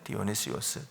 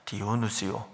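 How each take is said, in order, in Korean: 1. 이 이름은 마지막에 s 소리로 끝나요. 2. 이 이름은 모음으로 끝나요. s가 없어요. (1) "원 발음을 하면 디오니시오스죠" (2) "디오누시오라고 했지만"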